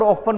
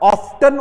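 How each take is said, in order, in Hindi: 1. t ध्वनि पूरी तरह छोड़ दी जाती है। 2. बीच में t ध्वनि उच्चारित होती है।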